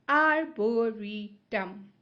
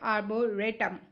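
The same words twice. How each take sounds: First: The third syllable sounds like 'ree'. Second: The third syllable sounds like 'ray'. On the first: The speaker calls it right. "But here it's a Re. So Re" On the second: The speaker calls it wrong. "I could have pronounced it as arboretum, but no, this is not Ray"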